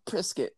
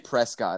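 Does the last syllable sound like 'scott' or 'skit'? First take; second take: skit; scott. First: The last syllable sounds like 'skit'. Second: The last syllable sounds like 'scott'. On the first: "they're all like, Prescott" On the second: "I say Prescott ... there's an O, so, I mean, it's a Scott"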